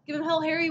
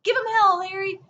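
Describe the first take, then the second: First: Said in the usual way. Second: Crowd cheer. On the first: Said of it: "was the campaign's slogan". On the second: Retold or imitated. Crowd cheering Truman on the campaign trail, mock yelled. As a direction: holler it like a happy supporter. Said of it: "people are hooping and hollering".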